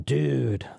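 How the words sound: It sounds pleased, savoring something tasty. The speaker is enjoying something delicious. "gave me some delicious pizza, I can eat it and say"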